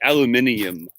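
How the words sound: It is said with a British pronunciation. "They say aluminium"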